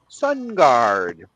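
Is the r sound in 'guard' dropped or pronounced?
pronounced. The word guard is said with a clear r. "he was talking about Sun Guard"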